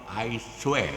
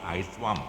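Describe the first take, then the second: First: It is said in the Kelantanese dialect. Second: It is said in standard Malay pronunciation.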